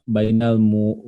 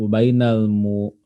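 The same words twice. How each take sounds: Both takes have the same delivery.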